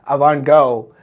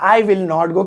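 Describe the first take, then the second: First: Will and not merge into one short word. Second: Will and not are said as separate words. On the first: "विल और नॉट को जोड़कर वॉन्ट बनता है" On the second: "I विल नॉट go की जगह"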